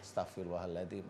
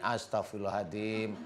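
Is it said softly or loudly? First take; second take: softly; loudly. First: It is said softly, almost murmured. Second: It is said noticeably louder.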